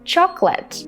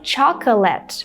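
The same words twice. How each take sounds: First: The word is said with two syllables. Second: The word is said with three syllables. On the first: The speaker calls it right. "you should say" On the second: The speaker calls it wrong. "with three syllables"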